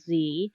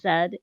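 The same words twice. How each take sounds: First: The letter is said as 'zee'. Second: The letter is said as 'zed'. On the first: It is the usual American way. "instead of Z" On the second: It is the British way, learned from a spouse. "picked up a lot of stuff from him, like saying Z"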